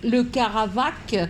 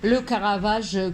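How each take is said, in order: First: The name ends in a hard k sound. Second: The name ends in a soft zh sound. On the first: This is the form the speaker instinctively wants to say. "je veux toujours prononcer le Caravac" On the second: This is the form the dictionary gives. "je dis Caravage, le Caravage comme le dictionnaire le dit"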